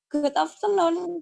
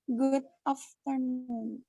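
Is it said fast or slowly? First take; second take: fast; slowly. First: It is said fast. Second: It is said slowly.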